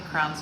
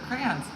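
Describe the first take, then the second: First: The word is squeezed into one syllable. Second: The word is said with two syllables. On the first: The speaker calls it wrong. "Do not say crowns" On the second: The speaker calls it right. "for crayons"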